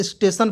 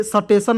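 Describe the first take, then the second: First: स्टेशन with a tight st cluster, steshan; स्टेशन said right as steshan; correct pronunciation. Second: स्टेशन with an extra vowel, sa-teshan; स्टेशन said wrongly as sa-teshan; wrong pronunciation. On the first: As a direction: say स्टेशन as one syllable start, steshan. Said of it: "स्टेशन पढ़ते हैं". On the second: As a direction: split the s cluster in स्टेशन. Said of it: "इसे स्टेशन नहीं पढ़ेंगे". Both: Shown as a demonstration.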